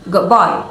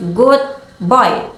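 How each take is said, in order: First: Put-on "good boy" run together, the D turning into B; assimilated D. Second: Said in the usual way. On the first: Shown as a demonstration. Teacher showing assimilation, D of "good boy" blended into B. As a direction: say "good boy" as "goob boy", joined up. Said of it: "sound more like a B". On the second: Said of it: "the D sound in good may change slightly".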